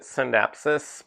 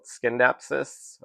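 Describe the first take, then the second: First: The word begins with a plain S sound. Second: The word begins with an SK sound. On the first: "I pronounce it Scindapsus" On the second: "I do hear a lot of people call it Skindapsus"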